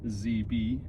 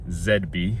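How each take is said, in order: First: The letters are said the American way. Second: The letters are said the British way.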